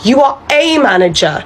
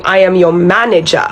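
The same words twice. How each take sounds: First: "a" said as a full "ay", higher and falling; mocking correction that hits "a"; stress on a. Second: "am" leaned on, falling and firm; asserting rank with a heavy "am"; stress on am. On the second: Acted. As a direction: insist on the word am, I am your manager.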